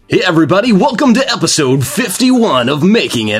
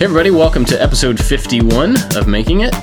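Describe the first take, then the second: First: It is said in a put-on radio announcer voice. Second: It is said in a normal conversational voice.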